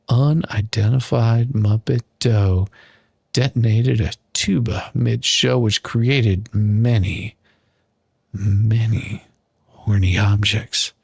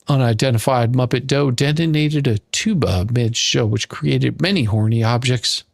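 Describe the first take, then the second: First: It is read very slowly. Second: It is read at normal speed.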